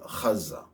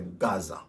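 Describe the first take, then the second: First: It begins with a throaty guttural sound. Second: It begins with a hard G sound. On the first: The speaker calls it right. "It's a H, not a Ga. Ha is a guttural" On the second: The speaker calls it wrong. "they don't say Gaza"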